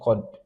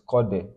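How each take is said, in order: First: The final d stops abruptly with no bounce. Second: The final d ends with a slight echoing bounce. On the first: The speaker calls it wrong. "It is not Qad" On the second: The speaker calls it right. "it is Qade, because of a ruling called Qal Qala"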